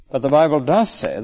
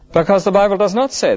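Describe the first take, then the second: First: "does" leaned on firmly in "the Bible does say"; weight on "does" without lifting the voice; stress on DOES. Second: "not" hit higher and harder in "the Bible does not say"; stress on NOT. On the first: Preacher answering himself by stressing "does". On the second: Preacher stressing "not" to the congregation. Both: Shown as a demonstration.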